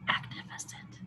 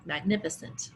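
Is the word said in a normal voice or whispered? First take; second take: whispered; normal. First: The word is said in a whisper. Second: The word is said in a normal voice. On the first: "And then we whisper it" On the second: "I'll say it and you say back to me"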